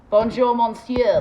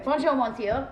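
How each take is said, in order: First: "Bonjour, monsieur" belted out slowly and loud. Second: Said in the usual way. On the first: Shown as a demonstration. Vlogger nailing her French greeting, loud and slow. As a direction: drag out "Bonjour, monsieur" like a proud tourist. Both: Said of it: "There we go".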